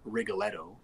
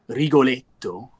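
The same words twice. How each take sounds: First: The name is said with an American accent. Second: The name is said in an Italian-style way.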